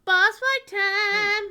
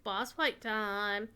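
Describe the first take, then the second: First: High, slow, loud announcer yell; hype shout. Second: Said in the usual way. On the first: Shown as a demonstration.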